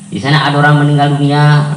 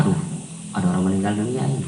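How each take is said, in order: First: Said in the usual way. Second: Casual, offhand. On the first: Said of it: "kita kayak biasa-biasa saja ya". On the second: Shown as a demonstration. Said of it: "Coba biasa saja kayaknya".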